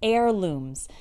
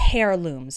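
First: The word begins without any H sound. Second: The word begins with an audible H sound. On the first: The speaker calls it right. "Notice that the first H in this word is silent" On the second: The speaker calls it wrong. "We don't say heirlooms, okay? That's not correct"

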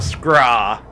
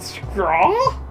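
First: The voice falls at the end. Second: The voice rises at the end.

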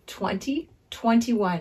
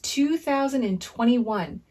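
First: The year is read as twenty twenty-one. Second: The year is read as two thousand twenty-one. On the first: "You can also say 2021 because it looks like two numbers together" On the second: "And the year is 2021"

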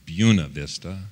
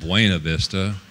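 First: The name is said with the local pronunciation. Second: The name is said with the standard pronunciation. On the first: This is how people in the town say it. The speaker calls it right. "it's pronounced Buena Vista" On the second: This is how outsiders would expect it to be said. The speaker calls it wrong. "not Buena Vista"

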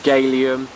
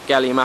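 First: It does not sound like the element gallium. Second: It sounds like the chemical element gallium. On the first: "a bit more try-hard" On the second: "you could pronounce it incorrectly, like it's a chemical"

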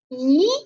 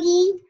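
First: The pitch rises from middle to high. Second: The pitch stays high and level. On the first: "二声是向上扬的，读咦咦" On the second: "一声一"

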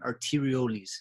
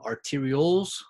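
First: It is pronounced in the Latin way. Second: It is pronounced in the American way. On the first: "the correct Latin pronunciation" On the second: "in the US, they tend to pronounce them"

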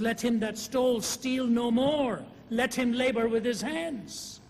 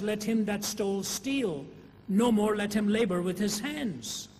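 First: The pause comes right after 'no more'. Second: The pause comes right after 'steal'.

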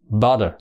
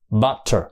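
First: The middle consonant is a soft d sound. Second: The middle consonant is a clear t sound. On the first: This is the American pronunciation. "người Mỹ trong trường hợp này là cái chữ âm tờ đọc thành âm đờ" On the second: This is the British or Australian pronunciation. "Đó là đọc chuẩn theo người Anh hay người Úc"

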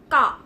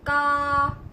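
First: The vowel is held briefly. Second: The vowel is drawn out. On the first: "단 모음은" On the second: "자 모음은"

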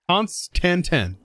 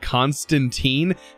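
First: The word ends with a short 'tan' sound. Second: The word ends with a long 'teen' sound. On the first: The speaker calls it right. "I think it's Constantan" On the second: The speaker calls it wrong. "I always call it Constantine, and people are like, there is no teen at the end of this"

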